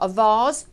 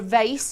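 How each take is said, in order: First: Vase is said with a British accent. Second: Vase is said with an American accent.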